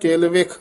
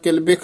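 First: The middle consonant is pronounced as a v. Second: The middle consonant is not pronounced as a v. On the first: The speaker calls it right. "ਵਾਵਾ ਨਾਲ ਉਚਾਰਨ ਕਰਨਾ" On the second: The speaker calls it wrong. "ਨੀ ਕਹਿਣਾ"

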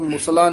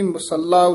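First: The l sound is short and single. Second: The l sound is held long and doubled. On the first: The speaker calls it wrong. "ਇਸ ਨੂੰ ਮੁਸਲਾ ਨੀ ਕਹਿ ਦੇਣਾ" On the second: The speaker calls it right. "ਇਹ ਵੀ ਮੁਸੱਲਾ ਉਚਾਰਨ ਕਰਨਾ"

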